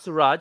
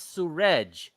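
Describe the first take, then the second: First: The name is said so it rhymes with garage. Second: The name is said so it does not rhyme with garage. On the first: The speaker calls it wrong. "not Suraj" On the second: The speaker calls it right. "I corrected him. I said, it's Suraj"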